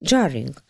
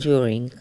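First: It starts with a 'j' sound, like 'jarring'. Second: It starts with a 'd' sound, like 'during'. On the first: The speaker calls it wrong. "jarring, rozumiesz, zamiast during" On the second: The speaker calls it right. "zamiast during"

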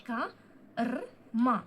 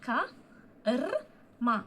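Both takes have the same delivery.

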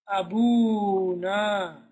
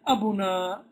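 First: The word has a long 'oo' vowel. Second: The word has no long 'oo' vowel. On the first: The speaker calls it right. "you say akhuna, abuna. that waw will appear" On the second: The speaker calls it wrong. "You don't say akhuna and abuna"

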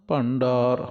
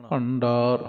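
The two takes are said the same way.

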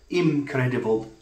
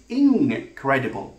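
First: The first syllable ends in an m sound. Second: The first syllable ends in an ng sound. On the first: The speaker calls it wrong. "It's not incredible, like impossible" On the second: The speaker calls it right. "But it is incredible. It's the N sound"

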